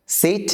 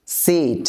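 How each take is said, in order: First: High-pitched "সিট" with a brief i; short vowel. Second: "সিট" with a drawn-out ee; long vowel. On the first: Teacher contrasting vowels for learners, short "সিট". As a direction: keep "সিট" short and higher. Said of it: "প্রথমটা টান হচ্ছে না". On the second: Teacher contrasting vowels for learners, long "সিট". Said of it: "দ্বিতীয়টা টান দিয়ে". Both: Shown as a demonstration.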